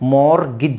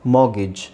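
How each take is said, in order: First: The r sound is pronounced. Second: The r sound is silent. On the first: "ಮಾರ್ಗಿಜ್ ಅಂತನಾದರೂ ಹೇಳಿ" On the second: "ಇಲ್ಲಿ ಆರ್ silent ಆಗಿರುತ್ತೆ"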